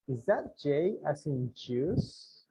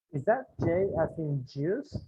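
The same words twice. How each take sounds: First: Slow, careful model phrase; slow drill. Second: Said in the usual way. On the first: Shown as a demonstration. Teacher drilling the question slowly for the class. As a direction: say it slowly for repetition. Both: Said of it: "aquí le pongo, miren".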